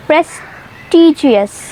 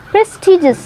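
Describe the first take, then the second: First: प्रेस्टिजियस slowly with a full gi-us ending; wrong pronunciation. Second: प्रेस्टिजियस said pres-ti-jus in three syllables; correct pronunciation. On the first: Teacher showing the common mistake, प्रेस्टिजियस with four syllables. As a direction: stretch प्रेस्टिजियस into pres-ti-gi-us. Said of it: "इसको बोलते हैं". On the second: Teacher giving the right form, प्रेस्टिजियस with a short ending. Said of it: "इसको कहते हैं". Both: Shown as a demonstration.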